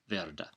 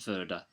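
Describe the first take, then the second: First: The r sound is clearly pronounced. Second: The r sound is dropped. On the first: The speaker calls it right. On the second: The speaker calls it wrong.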